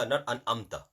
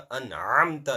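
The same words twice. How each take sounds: First: أنعمت said flatly with no ayn; wrong, without ayn. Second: أنعمت with a clear throaty ayn; correct ayn. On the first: Teacher showing the wrong أنعمت. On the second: Teacher giving the right أنعمت. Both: Shown as a demonstration.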